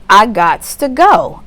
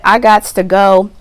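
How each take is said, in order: First: "I gots to go" slowed down and louder; slow final declaration. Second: Louder, firm "I gots to go"; determined declaration. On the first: Client closing the argument, slow and emphatic. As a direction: drag it out like the last word. Acted quote, closing take. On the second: Client declaring she is moving on, firm and louder. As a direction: announce you're leaving, no discussion. Acted quote, first take. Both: Pretend.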